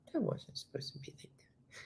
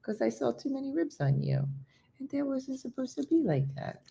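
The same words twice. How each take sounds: First: Near-whispered coo; whispered pet talk. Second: High, soft pet talk; cooing to dog. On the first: Owner to once-skinny dog, whispered coo. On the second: Owner to dog about too many ribs, high coo. Coos to her once-skinny dog. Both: Real, not acted.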